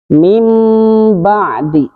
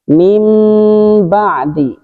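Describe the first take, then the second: No difference in how they are said.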